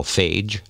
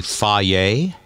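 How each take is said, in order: First: "phage" said as one syllable, like fayj; former mispronunciation. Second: "Fage" said slowly in two syllables, fah-yay; Greek-style pronunciation. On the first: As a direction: rhyme "phage" with page. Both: Shown as a demonstration. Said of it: "which I used to call phage".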